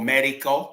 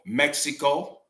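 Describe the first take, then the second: First: The name is said with Spanish sounds. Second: The name is said with English sounds.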